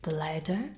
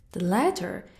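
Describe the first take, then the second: First: "The latter?" asked with a rising tune; rhetorical question. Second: "The latter" said firmly with a falling tune; weighty answer. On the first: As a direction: toss "The latter?" up like a mocking question. Rhetorical question before answering it. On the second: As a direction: land "The latter" as the answer, pressing down on it. Answers own rhetorical question. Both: Acted.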